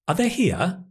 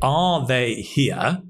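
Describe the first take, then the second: First: 'Are' is reduced to a weak schwa sound. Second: Every word is stressed, with a full 'are'. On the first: The speaker calls it right. "the weak form of are, unstressed, is ah" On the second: The speaker calls it wrong. "stressing every word"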